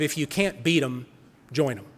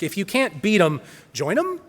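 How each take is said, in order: First: It ends with a falling, statement tune. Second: It ends with a rising, questioning tune.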